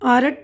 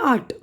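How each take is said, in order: First: The r sound is clearly pronounced. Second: The r sound is silent. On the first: The speaker calls it wrong. "ये आरट नहीं पढ़ेंगे" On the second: The speaker calls it right.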